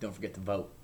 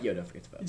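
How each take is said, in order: First: It sounds menacing and threatening. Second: It sounds casual and friendly.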